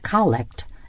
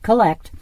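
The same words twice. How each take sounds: First: The stress is on the first syllable. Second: The stress is on the second syllable. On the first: It names the opening prayer of the Mass. The speaker calls it right. "our word collect" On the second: It means to gather things together. The speaker calls it wrong. "not collect"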